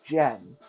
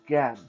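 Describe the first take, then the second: First: The name starts with a soft J sound. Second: The name starts with a hard G sound. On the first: The speaker calls it wrong. "some people pronounce it Jen" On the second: The speaker calls it right. "let me correct you guys and give you the correct answer. It is Gan"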